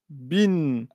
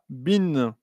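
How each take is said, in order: Both takes have the same delivery.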